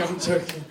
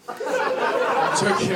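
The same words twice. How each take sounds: First: Said in the usual way. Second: Slow, stretched-out I'm joking through a laugh; drawn-out joking. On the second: Acted. Comic telling the crowd he's kidding, slow and laughing. Repeats joke retraction, drawn out.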